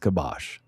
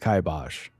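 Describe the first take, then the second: First: It uses a less common American pronunciation. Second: It uses the main American pronunciation. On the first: "a subsection of an American pronunciation" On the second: "The American uh, way to say it is"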